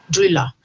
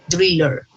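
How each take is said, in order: First: It has a British accent with the R dropped. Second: It has an American accent with the R pronounced.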